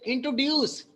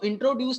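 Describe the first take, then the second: First: The stress is on the last syllable, duce. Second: The stress is on the first part, intro.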